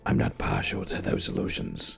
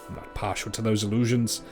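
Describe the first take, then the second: First: It is said in a put-on Dunmer voice. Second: It is said without a convincing Dunmer voice.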